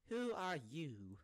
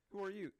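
First: Slow, high, stretched-out mock bafflement; drawn-out confusion. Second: Quick, high-pitched puzzled question; a quick, louder mock-baffled ask; confused question. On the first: George Washington baffled by Barack Obama, drawn-out mock confusion. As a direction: drag out each word, hamming up the confusion. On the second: George Washington meeting Barack Obama, mock confused. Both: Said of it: "then he'd be so confused".

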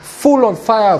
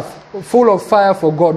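First: Said in the usual way. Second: "full of fire for God" drawn out slowly, each word weighted; slow emphatic repeat. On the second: Shown as a demonstration. Preacher repeating "full of fire for God" slowly for emphasis. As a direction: lean on "full" and slow right down.

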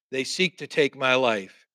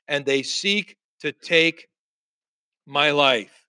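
First: Said in the usual way. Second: Slow, with pauses before the end; halting, weighty delivery; deliberate lament. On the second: Acted. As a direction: draw it out, pause before "my life". Elijah's lament, spaced out.

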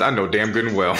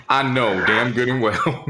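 First: Said in the usual way. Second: Slow, laughing I know damn good and well, drawn out; laughing disbelief. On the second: Shown as a demonstration. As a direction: stretch it out through a laugh of disbelief.

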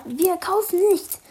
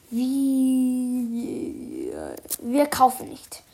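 First: Growled. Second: Said in the usual way. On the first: Acted. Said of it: "grollte der Komplize". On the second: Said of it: "Ich sag mal das nochmal".

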